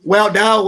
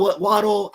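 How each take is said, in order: First: "Waddell" with a full second syllable; alternate pronunciation. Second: "Waddle" with a reduced -dle ending; alternate pronunciation. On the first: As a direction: try "Waddell" as wah-DELL. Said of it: "I've heard it pronounced so di". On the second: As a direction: try "Waddle" like the verb, WAH-dul. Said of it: "so many different ways". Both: Shown as a demonstration.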